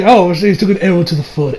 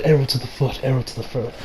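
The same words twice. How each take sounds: First: Said in the usual way. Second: Fading echo. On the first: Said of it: "I was like". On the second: Pretend. Reviewer jokes about the arrow, fading echo. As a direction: repeat it, softer and softer, like an echo. Mock echo of his own line.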